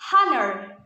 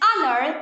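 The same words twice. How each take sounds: First: The word starts with an audible H sound. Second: The word starts with a vowel, no H. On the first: The speaker calls it wrong. "instead of honor" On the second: The speaker calls it right. "It is similar to the previous word"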